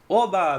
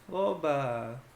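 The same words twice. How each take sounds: First: It sounds genuinely joyful and happy. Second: It sounds ironic and disappointed.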